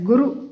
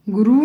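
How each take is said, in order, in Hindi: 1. दोनों स्वर छोटे हैं। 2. एक स्वर लंबा है। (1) "छोटे ऊ की मात्रा ... यही सही शब्द है" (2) "गुरु नहीं होता"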